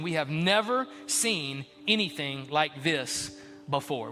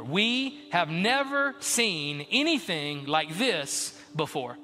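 First: Slow quote. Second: Slower repeat. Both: Shown as a demonstration.

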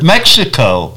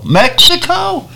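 First: Said in the usual way. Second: Mexico? jumps much higher in disbelief; shocked disbelief. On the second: Retold or imitated. Realizing the van is heading into Mexico, stunned. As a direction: squeak out Mexico? as a stunned question.

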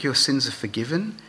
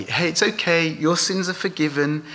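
First: Said in the usual way. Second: Higher, breezy, easy words anyone could say; offhand assurance. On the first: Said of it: "Which is easier, to say". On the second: Shown as a demonstration. Preacher showing how easily anyone could say it, offhand. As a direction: toss off "your sins are forgiven" lightly. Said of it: "anyone could say".

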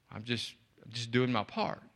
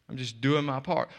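First: Much softer and lower, modest shrug; a volunteer quietly brushing off praise; humble and soft. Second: Said in the usual way. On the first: Retold or imitated. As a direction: play it down, barely above a murmur. Humble volunteer answers stranger.

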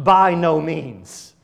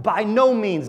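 First: Slow and weighty, every word leaned on; emphatic exclamation. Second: Said in the usual way. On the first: Shown as a demonstration. Preacher voicing Paul's outraged denial, slow emphatic exclamation. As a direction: proclaim "By no means." slowly, like a shocked outcry. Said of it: "the initial response in verse two is an exclamation". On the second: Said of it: "when I hear Paul say that".

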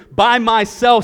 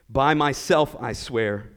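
First: Emphatic oath. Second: Solemn oath. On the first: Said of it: "says the Lord". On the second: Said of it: "with the utmost seriousness and certainty". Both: Acted.

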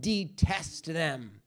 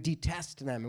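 First: Slow and heavy, "detest them" drawn out; stressed detest. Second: "Detest them" dropped much softer and lower; soft repeated detest. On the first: Teacher to class, slow heavy "detest them". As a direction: lean slowly into "detest them". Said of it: "Not just don't eat them, but detest them". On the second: Teacher repeating to class, hushed "Detest them". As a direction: let "Detest them" sink to a hush. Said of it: "Right? Detest them". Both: Shown as a demonstration.

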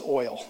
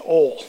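First: "oil" with the oy glide clearly sounded; full I sound. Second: "ol" for oil, with no I sound; Southern pronunciation. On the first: Preacher correcting Southerners, "oil" with its full glide. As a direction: pronounce the I in "oil". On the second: Preacher teasing Southerners, "ol" said without its I. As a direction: say "ol", leaving out the glide of oil. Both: Shown as a demonstration. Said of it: "There's an I in it".

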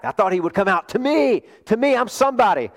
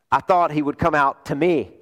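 First: TO ME pushed high and indignant; emphatic. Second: Said in the usual way. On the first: Acted. Naaman insisting he is somebody, emphatic and indignant. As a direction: lean hard on "to me", pitch jumping up. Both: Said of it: "And that's emphatic".

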